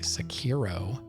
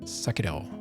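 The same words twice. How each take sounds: First: The r sounds like an English r. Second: The r sounds almost like a d. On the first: "But I've heard people say Sekiro" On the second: "It's more of like a, almost like a D in a way"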